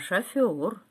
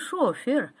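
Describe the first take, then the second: First: The stress is on the second syllable. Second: The stress is on the first syllable. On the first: The speaker calls it right. "а шофер" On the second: The speaker calls it wrong. "Ставьте правильно ударение. Возил не шофер"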